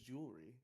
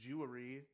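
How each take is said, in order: First: The middle vowel sound is dropped. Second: The middle vowel sound is pronounced. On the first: The speaker calls it right. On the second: The speaker calls it wrong.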